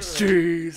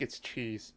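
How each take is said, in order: First: It is said with an odd, exaggerated spin. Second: It is said in a plain, ordinary way.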